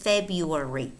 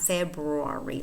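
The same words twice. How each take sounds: First: The first r sound is dropped. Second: The first r sound is fully pronounced. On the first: The speaker calls it right. "the er disappears" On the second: The speaker calls it wrong. "It's not February"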